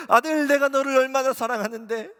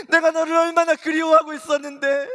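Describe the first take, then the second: First: Loud, high fervent plea, stress on 내가; Jesus calling his son back with rising emotion; the first of three swelling cries, starting on 내가; Jesus pleading. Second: Louder, higher peak of the plea on 내가; Jesus at full force, longing for his son; the top of the build, 내가 hit hardest; Jesus crying out. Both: Retold or imitated. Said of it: "주님이 이렇게 말씀하셨어요".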